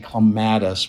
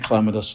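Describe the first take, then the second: First: The word's middle part rhymes with lattice. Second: The word's middle part does not rhyme with lattice. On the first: This is the usual American pronunciation. "Americans tend to say clematis, which rhymes with lattice" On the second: This is the British pronunciation. "I say clematis like the Brits"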